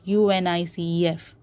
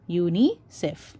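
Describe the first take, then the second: First: "U N I C E F" said letter by letter; name each letter in "U N I C E F"; spelled out. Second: "unicef" said as one word, you-ni-sef; read as a word. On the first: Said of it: "You don't pronounce it as". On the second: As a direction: blend the letters into "unicef". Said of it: "You pronounce it as unicef". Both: Shown as a demonstration.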